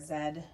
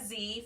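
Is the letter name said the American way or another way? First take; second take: another way; American. First: The letter name is said the non-American way. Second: The letter name is said the American way.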